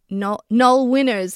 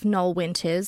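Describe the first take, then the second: First: It is said imitating a local regional accent. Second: It is said in a plain, neutral accent.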